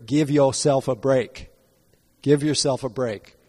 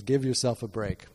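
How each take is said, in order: First: A light imitation of a Southern American accent, a bit louder; Herman Cain accent. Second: Said in the usual way. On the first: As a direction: mimic a Southern American accent gently, "Give yourself a break" leaning on "Give". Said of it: "when I try to mimic his accent". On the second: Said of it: "that's the direction that I want to go tonight".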